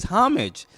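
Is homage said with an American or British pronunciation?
British. It is said with a British pronunciation. "The British way to say it is"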